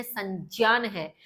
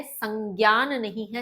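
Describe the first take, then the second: First: संज्ञान said as "sanjnyan" with j sound, slowly; correct pronunciation. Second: संज्ञान said as "sangyan" with g and y; wrong pronunciation. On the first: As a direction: say संज्ञान carefully with the j, slow. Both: Shown as a demonstration. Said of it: "इसका भी सही pronunciation".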